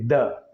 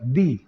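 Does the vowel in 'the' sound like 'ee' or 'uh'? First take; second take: uh; ee. First: The vowel is a short uh sound. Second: The vowel is a long ee sound. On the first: The next word begins with a consonant sound. "if the word starts with a consonant sound, then we have to say the" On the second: The next word begins with a vowel sound. "If the word gives a vowel sound at the beginning, we have to pronounce this word as the"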